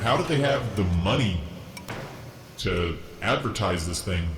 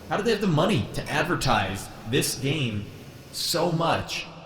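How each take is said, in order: First: It is said in his normal voice. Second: It is said in a half robot voice.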